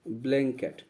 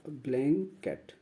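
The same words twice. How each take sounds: First: Said in the usual way. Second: "ब्लैंकेट" broken as ब्लैं, pause, केट; teacher's split reading of "ब्लैंकेट", ब्लैं then केट; syllable-split pronunciation. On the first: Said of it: "इसका जो pronunciation होगा". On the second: Shown as a demonstration. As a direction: sound out "ब्लैंकेट" in two separate parts, ब्लैं - केट. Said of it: "इसका जो pronunciation होगा वैसे लिखा जाएगा".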